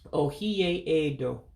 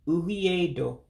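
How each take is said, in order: First: The 'e' before 'do' is kept and pronounced. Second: The 'e' before 'do' is dropped entirely. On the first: The speaker calls it wrong. "I mispronounced that" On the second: The speaker calls it right. "you do get rid of that E in edo"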